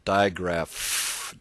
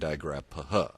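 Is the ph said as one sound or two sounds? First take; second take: one sound; two sounds. First: The ph is said as one f sound. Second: The p and h are sounded separately. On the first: The speaker calls it right. "digraph will produce one single sound" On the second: The speaker calls it wrong. "you don't say digraph, obviously"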